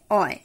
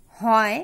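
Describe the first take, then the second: First: অয় with no h sound; h dropped. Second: Said in the usual way. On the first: Shown as a demonstration. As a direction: say অয় instead of হয়. (হ বাদ দিয়ে অয়) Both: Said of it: "হয়ের পরিবর্তে অ উচ্চারিত হয়".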